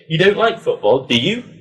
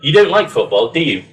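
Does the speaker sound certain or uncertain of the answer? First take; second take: uncertain; certain. First: It sounds like a real, uncertain question. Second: It sounds sure, just checking a known answer. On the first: The speaker does not know the answer and wants to find out. "you maybe don't know... It's a genuine question" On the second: The speaker thinks they know the answer and wants to confirm it. "you're quite sure, you feel like you know the answer"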